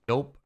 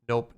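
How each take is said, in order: The two takes are said the same way.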